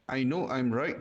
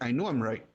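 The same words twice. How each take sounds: First: The words are separated by small breaks. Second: The words flow together without breaks. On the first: The speaker calls it wrong. "instead of saying" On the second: The speaker calls it right. "Try to say"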